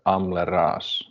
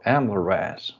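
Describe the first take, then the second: First: The name is pronounced with Finnish sounds. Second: The name is pronounced with English sounds. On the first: "if I would say pronounce it like in like Finnish" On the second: "or Amleras in English"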